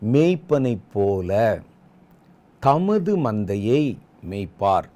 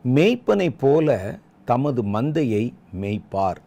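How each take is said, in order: First: It is read slowly, with words drawn out. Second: It is read straight through at normal pace. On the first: "இப்போ இந்த வசனத்தை நிதானமாய் வாசிப்போம் பாருங்கள்" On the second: "முதல்ல ஒரு தடவை அப்படி நேராக வாசிச்சிருவோம்"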